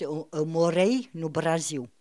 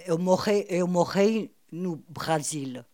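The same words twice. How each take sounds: First: MOREI with tapped R, BRASIL ending like "ziu"; correct Brazilian pronunciation. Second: MOREI and BRASIL with guttural foreign R; slowly, R in the throat, L sounded in BRASIL; foreign throaty R. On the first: Shown as a demonstration. Correcting to how it should be, MOREI tapped, BRASIL as "Braziu". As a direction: tap the R lightly in MOREI and BRASIL. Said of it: "Or que ça devait être". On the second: Retold or imitated. Imitating the writer's Portuguese, foreign guttural R in MOREI and BRASIL. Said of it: "ça peut être très bien un accent allemand".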